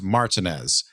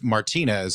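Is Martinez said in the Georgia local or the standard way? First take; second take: Georgia local; standard. First: It is said the Georgia local way. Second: It is said the usual, standard way. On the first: "We we do that in Georgia" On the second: "instead of the city of Martinez"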